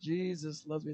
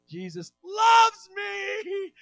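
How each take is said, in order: First: It is said in a flat, plain way. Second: It is said in an excited, lively way.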